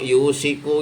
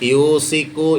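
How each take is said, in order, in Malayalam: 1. മധ്യത്തിലെ വ്യഞ്ജനം sh ആണ്. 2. മധ്യത്തിലെ വ്യഞ്ജനം സാധാരണ s ആണ്. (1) "യൂസിക്കു എന്നോ യൂഷിക്കു എന്നോ പറയരുത്" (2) "യൂസിക്കു എന്നോ യൂഷിക്കു എന്നോ പറയരുത്"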